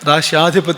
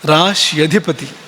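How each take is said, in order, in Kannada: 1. 'rashy' ನಂತರದ ಸ್ವರ ದೀರ್ಘ. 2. 'rashy' ನಂತರದ ಸ್ವರ ಹ್ರಸ್ವ.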